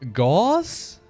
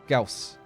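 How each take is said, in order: First: The vowel sounds like the one in horse. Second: The vowel sounds like the one in house. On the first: "I hear so many people rhyme it with horse" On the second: "Let me first rhyme with the house"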